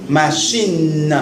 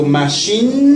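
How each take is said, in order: First: Machine ending in a plain oral in; clear machine. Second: Machine with a clear non-nasal in. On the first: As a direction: say machine with a pure in sound. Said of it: "porque tú dices in". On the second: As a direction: keep the in of machine oral. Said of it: "Pero no nasal". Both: Shown as a demonstration.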